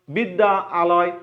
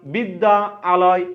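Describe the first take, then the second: No difference in how they are said.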